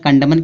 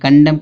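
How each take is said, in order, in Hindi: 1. अंतिम n ध्वनि बोली जाती है। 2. अंतिम n ध्वनि मौन रहती है। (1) "कंडमन क्यों नहीं पढ़ा जा रहा है?" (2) "यन क्या होगा, साइलेंट होगा, तो इसको पढ़ेंगे कंडम"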